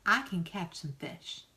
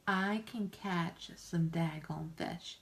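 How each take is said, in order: First: Said in the usual way. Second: Each word of "I can catch some daggone fish" leaned on slowly; slow it right down and hammer "daggone"; emphatic, slowed down. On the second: Real, not acted.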